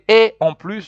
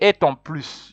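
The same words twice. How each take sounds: First: The words are said separately without linking. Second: The words are linked together in one flow. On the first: The speaker calls it right. "you say" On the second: The speaker calls it wrong. "you never say"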